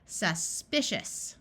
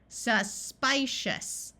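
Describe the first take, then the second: First: The second syllable has a short i vowel. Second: The second syllable has a long i vowel. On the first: The speaker calls it right. "we switch the long I to the short I" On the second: The speaker calls it wrong. "I don't recognize that"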